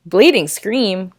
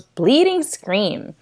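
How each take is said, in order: First: Rising, puzzled "Bleeding scream?"; puzzled question. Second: Slow flat quote. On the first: Real, not acted. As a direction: ask it in disbelief. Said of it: "What the heck?". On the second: Retold or imitated. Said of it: "all she said was".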